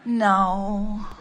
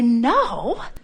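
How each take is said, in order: First: It is said in a disappointed, deflated way. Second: It is said in a cheerful, upbeat way.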